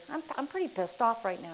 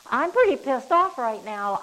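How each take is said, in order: First: Said in the usual way. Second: Louder, higher demo of being pissed off; mock angry outburst. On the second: Shown as a demonstration. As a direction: act out the anger for the example, hammed up a bit. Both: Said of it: "I just used that word".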